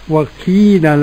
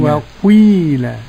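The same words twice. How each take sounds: First: The i vowel is pure with no u sound. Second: The i vowel starts with a brief u sound. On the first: "والمقول بإخلاص الكسر" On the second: "إشمام الكسرة ... ضمة مقدمة على الكسرة"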